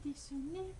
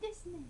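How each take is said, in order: First: Every letter is sounded out as written. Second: It is said the native way, not letter by letter. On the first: This is the habitual way, taken from the spelling. The speaker calls it wrong. "j'ai l'habitude de dire Desune parce que moi, ça s'écrit comme ça" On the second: This is how the name is actually said. The speaker calls it right. "mais ça se dit Desune"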